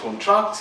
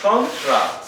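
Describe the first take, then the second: First: The stress is on the second syllable. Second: The stress is on the first syllable. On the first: It names an action, giving work out. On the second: It names a thing, an agreement.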